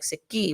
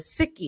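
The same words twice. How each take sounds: First: The stress is on the last syllable. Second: The stress is on the first syllable. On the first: The speaker calls it right. "it's like on this uh the end of the words" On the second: The speaker calls it wrong. "instead of"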